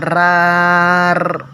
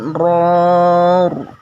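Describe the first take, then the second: First: The r is light, with a thin vowel. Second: The r is heavy, with a full vowel. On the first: The speaker calls it wrong. "bukan rar" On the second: The speaker calls it right. "tapi ror"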